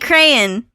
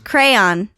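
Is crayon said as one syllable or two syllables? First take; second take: one syllable; two syllables. First: The word is squeezed into one syllable. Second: The word is said with two syllables. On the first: Another person says it this way. The speaker calls it wrong. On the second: This is how the speaker says it. The speaker calls it right.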